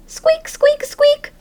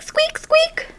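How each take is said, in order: First: Very high little squeaks; hamster squeaks. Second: Tiny high squeaks, far up in the voice; hamster squeaks. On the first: Hamster answering the janitor about music in high squeaks. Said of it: "I tried to tell him". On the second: Hamster squeaking at the janitor in tiny high squeaks. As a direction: squeak it like a small rodent. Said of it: "all that came out was squeak". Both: Acted.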